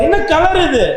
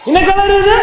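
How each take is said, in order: First: Said in the usual way. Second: High-pitched, rising call for an answer; உரக்கக் கேட்பது. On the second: Real, not acted. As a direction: ask it higher, pushing the audience to answer. (உயர்ந்த குரலில் பதில் கேட்டு மீண்டும் கேள்வி) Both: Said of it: "கேட்கலடா எனக்கு".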